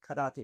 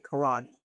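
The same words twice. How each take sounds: First: The word is pronounced with Japanese-style vowels. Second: The word is pronounced with English-style vowels. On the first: The speaker calls it right. "we were told to say karate" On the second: The speaker calls it wrong. "don't say karate"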